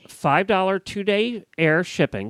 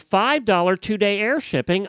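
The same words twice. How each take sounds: First: The phrase is said at a slower, deliberate pace. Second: The phrase is said at a normal, quicker pace.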